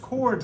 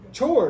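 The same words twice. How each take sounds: First: It begins with a k sound, as in cord. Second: It begins with a ch sound, as in church. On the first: The speaker calls it right. "It's actually pronounced chord with a K" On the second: The speaker calls it wrong. "If I didn't know it was chord, how would I pronounce it?"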